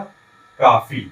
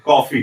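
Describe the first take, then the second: First: The first vowel is an open 'aa' sound. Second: The first vowel is a rounded 'aw' sound. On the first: It becomes a different word meaning enough. The speaker calls it wrong. "यदि हम इसका प्रयोग नहीं करेंगे" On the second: It means the drink. The speaker calls it right. "यदि हम इसमें आगत स्वर का प्रयोग करते हैं"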